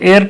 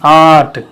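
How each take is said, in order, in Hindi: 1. यह शब्द 'e' स्वर से शुरू होता है। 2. यह शब्द लंबे 'aa' स्वर से शुरू होता है। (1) "एर्ट नहीं बोलेंगे" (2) "आ का उच्चारण आना चाहिए"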